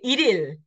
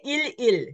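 First: The final L carries over into the next syllable. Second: The two syllables are said separately, unlinked. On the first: The speaker calls it right. "You have to say iril, The final consonant of our L gets carried over" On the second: The speaker calls it wrong. "But you don't say il il"

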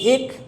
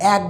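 First: The vowel is a closed 'e' sound. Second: The vowel is an open 'æ' sound. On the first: The speaker calls it wrong. "আমরা কিন্তু এক আসলে বলি না" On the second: The speaker calls it right. "এখানে একটা অ্যা ধ্বনিটা আসে"

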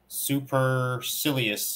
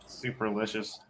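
First: The word ends with the sounds 'cilious'. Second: The word ends with the sounds 'licious'. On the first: The speaker calls it right. "I think the word is supercilious, actually" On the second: The speaker calls it wrong. "I pronounced it wrong"

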